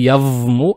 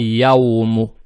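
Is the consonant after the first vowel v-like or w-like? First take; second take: v-like; w-like. First: The middle consonant is a hard v-like sound. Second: The middle consonant is a soft w-like glide. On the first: The speaker calls it wrong. "То есть не явму" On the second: The speaker calls it right. "букву вау произносим правильно"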